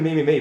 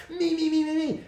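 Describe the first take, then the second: First: Said in the usual way. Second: Very high-pitched mocking chant; mock self-centred whining. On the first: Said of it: "well, he is saying". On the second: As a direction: imitate someone self-obsessed, way up high. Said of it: "starts being less like".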